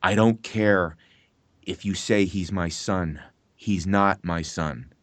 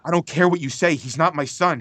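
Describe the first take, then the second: First: Slow, low, measured line read; slow cold denial. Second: Higher, quicker, disbelieving line; incredulous denial. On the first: Actor reading the father's cold denial, slow and low. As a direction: let each word land heavily, like a father disowning. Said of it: "and I'm paraphrasing". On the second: Actor re-telling the father line, higher and incredulous. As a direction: toss the denial off in shocked disbelief. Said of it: "but it was just like". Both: Retold or imitated.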